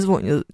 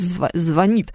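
First: The stress is on the first syllable. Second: The stress is on the last syllable. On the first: The speaker calls it wrong. "не звонит" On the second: The speaker calls it right. "Это как звонит"

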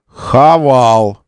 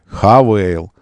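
First: The name ends with an 'al' sound. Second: The name ends with an 'ayl' sound. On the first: This is the everyday way people say the name. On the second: This is the way the brand wants the name said.

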